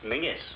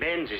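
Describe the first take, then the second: First: The name is said with an ng sound. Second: The name is said with a z sound. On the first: The speaker calls it right. "is pronounced Mingus" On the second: The speaker calls it wrong. "you Yanks will have to learn to speak the King's English"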